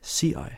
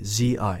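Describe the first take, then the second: First: The first consonant has a puff of air. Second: The first consonant has no puff of air. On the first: The speaker calls it wrong. "Now the wrong way" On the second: The speaker calls it right. "the right way"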